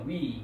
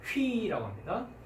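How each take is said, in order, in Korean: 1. 바로 모음으로 시작합니다. h 소리는 없습니다. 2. 숨이 섞인 h 소리로 시작합니다. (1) "위라는 발음인데" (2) "위라고 하지 않고 어떻게 될 것 같습니까? 예, 그렇습니다. 휘라고 합니다"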